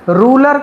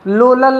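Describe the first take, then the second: First: The word begins with a clear R sound. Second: The word begins with an L sound instead. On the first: The speaker calls it right. "रूलर कहते हैं" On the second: The speaker calls it wrong. "लोलल नहीं"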